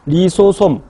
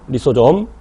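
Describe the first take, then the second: First: The last syllable begins with an s sound. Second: The last syllable begins with a j sound. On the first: "리소솜 하니까 당황하지 마세요. 이렇게 발음하기도 해" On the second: "맨날 리소좀이라고 했다가"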